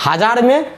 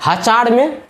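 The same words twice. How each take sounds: First: Said in the usual way. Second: "हजार" comes out as ha-chaar; slip into trick pronunciation. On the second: Real, not acted. Teacher slipping before a sorry, "हजार" pronounced ha-chaar. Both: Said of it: "यानी sorry, हजार में".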